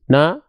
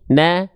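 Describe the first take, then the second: First: It is said without smiling, sounding fuller. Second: It is said smiling, sounding thinner. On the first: "tanpa senyum" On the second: "dengan senyum"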